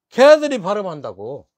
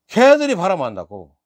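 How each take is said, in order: The two takes are said the same way.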